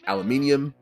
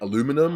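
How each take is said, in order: First: Said the British way, with five syllables. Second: Said the American way, with four syllables. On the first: "we say" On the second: "the Americans say what"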